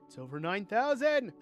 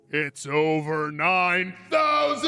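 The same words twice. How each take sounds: First: It is said in a calm, ordinary voice. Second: It is yelled loudly, straining the voice.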